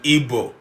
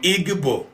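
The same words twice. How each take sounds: First: The middle consonant is a plain b sound. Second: The middle consonant is a double gb sound. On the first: The speaker calls it wrong. "to Igbo" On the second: The speaker calls it right. "From Igbo"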